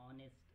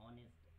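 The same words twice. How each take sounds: Both takes have the same delivery.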